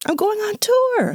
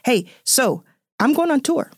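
First: Much higher, slow, sing-song going on tour; excited announcement. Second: Said in the usual way. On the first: Real, not acted. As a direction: stretch out I'm going on tour with glee.

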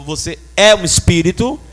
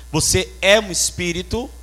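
First: Louder repeat, é pushed up; stress on é. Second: Said in the usual way. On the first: Real, not acted. Preacher repeating to the congregation, stressing é. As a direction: hammer home the word é. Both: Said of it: "Eu vou falar de novo".

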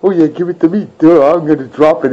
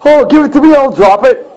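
First: Dopey mocking voice. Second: High, whiny mock of commenters. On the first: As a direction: play it like a clueless dope. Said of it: "Busting Sony's balls like". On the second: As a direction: sneer it up high like a know-nothing. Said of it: "These jokers that are in the comments going".

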